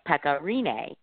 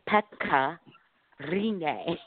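First: The name is said with an English-style pronunciation. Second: The name is said with a Finnish-style pronunciation. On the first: The speaker calls it wrong. "she says that we say it wrong" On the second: The speaker calls it right. "The proper Finnish way to say it is"

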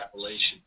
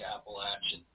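First: It is pronounced the way people outside the region say it. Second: It is pronounced the way local mountain people say it. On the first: This is the pronunciation used outside the region. "Every time I go outside, I hear" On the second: This is the pronunciation used in the region itself. "I'm from where they say"

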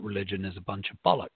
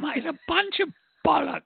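First: It is said in the speaker's normal voice. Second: It is said imitating the speaker's mum's voice.

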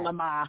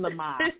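First: The name is said in a Boston accent. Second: The name is said in a plain accent.

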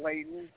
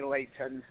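First: The middle t sound is dropped. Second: The middle t sound is clearly pronounced. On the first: The speaker is a local. The speaker calls it right. "in Utah, they forget to pronounce certain letters" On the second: The speaker is not a local. The speaker calls it wrong. "if you're not from Layton, you say Layton"

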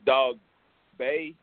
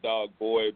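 First: The name ends with a 'bay' sound. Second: The name ends with a 'boy' sound. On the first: This is how the name is pronounced locally. "I think that's how they pronounce it" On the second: This is the speaker's own habitual pronunciation. "I say Dog Boy"

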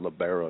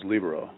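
First: The stress is on the second syllable. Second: The stress is on the first syllable. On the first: The speaker calls it wrong. "hitting the second accent, the second syllable that hard" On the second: The speaker calls it right. "I always thought it was libero"

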